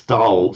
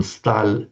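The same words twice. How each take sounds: First: Stal with a hard dark l; Russian Stal meaning stood. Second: Stal with a soft palatal l; Russian stal meaning steel. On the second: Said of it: "meaning steel". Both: Shown as a demonstration.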